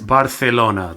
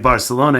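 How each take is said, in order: First: The c is said like a th sound. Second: The c is said like an s sound. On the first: "in Spanish is Barcelona. They put their tongue between" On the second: "in English is pronounced like an S"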